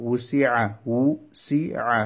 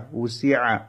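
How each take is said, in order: First: উসিআ very slow, in three parts: উ, সি, আ; syllable by syllable. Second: Said in the usual way. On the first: Shown as a demonstration. Teacher breaking down a word for learners, syllable by syllable. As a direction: pull উসিআ apart with pauses.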